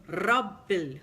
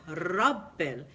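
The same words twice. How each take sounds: No difference in how they are said.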